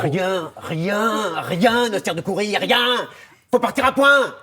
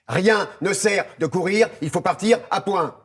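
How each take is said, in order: First: It sounds angry and loud. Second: It sounds firm and assertive.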